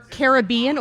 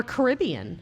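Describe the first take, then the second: First: Caribbean stressed on "BE"; Caribbean, first variant. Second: Caribbean stressed on "RIB"; Caribbean, second variant. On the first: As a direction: say Caribbean as ka-ruh-BEE-un. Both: Shown as a demonstration. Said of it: "Or Caribbean or Caribbean".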